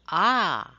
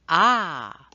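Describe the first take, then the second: First: The vowel is held about twice as long. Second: The same.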